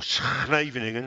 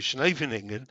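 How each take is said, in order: First: The name is said with Dutch-style sounds. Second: The name is said with English-style sounds.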